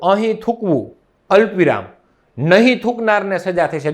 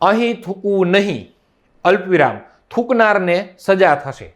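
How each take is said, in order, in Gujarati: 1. અલ્પ વિરામ શબ્દ 'thukvu' પછી આવે છે. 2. અલ્પ વિરામ શબ્દ 'nahi' પછી આવે છે. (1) "અહીં થૂકવું અલ્પ વિરામ, નહીં થૂકનારને સજા થશે. જો અર્થનો અનર્થ થઈ ગયો" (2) "હું એમ કહું કે અહીં થૂકવું નહીં અલ્પ વિરામ"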